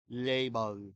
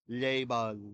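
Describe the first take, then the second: No difference in how they are said.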